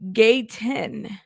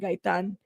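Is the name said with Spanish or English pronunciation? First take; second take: English; Spanish. First: The name is said with English pronunciation. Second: The name is said with Spanish pronunciation. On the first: "Not Guy, Gayton" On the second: "because that's how you would say it in Spanish"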